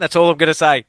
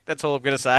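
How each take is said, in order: First: Louder, pitched up and final, with "all" stressed; pointed emphatic sign-off. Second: Said in the usual way. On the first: Real, not acted. To his co-host about the top brass, a firm pointed close. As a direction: lay it down firmly: That's ALL I'm gonna say.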